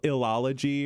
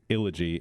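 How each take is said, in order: First: The name is said with four syllables. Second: The name is said with three syllables. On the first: The speaker calls it wrong. "My mind kept wanting to add another syllable in there" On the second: The speaker calls it right. "But it's not. It's Illogy"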